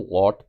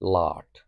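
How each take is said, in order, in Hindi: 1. स्वर एक गोल 'aw' ध्वनि है। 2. स्वर एक खुली 'aa' ध्वनि है। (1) "बहुत सारे लोग इसको लॉट पढ़ते हैं" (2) "लेकिन इसका प्रोनाउंसिएशन लाट है"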